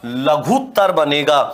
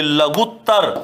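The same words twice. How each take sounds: First: लघुत्तर said with a long "oo", "laghootar"; लघुत्तर with the u stretched long; correct form. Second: लघुत्तर said with a short "u" and a doubled t, "laghuttar"; लघुत्तर with a clipped short u; wrong form demo. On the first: Teacher giving the correct long-u form लघुत्तर. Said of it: "दीर्घ उ आएगा". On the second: Teacher showing the common mistake लघुत्तर. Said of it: "जबकि लघुत्तर नहीं होता". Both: Shown as a demonstration.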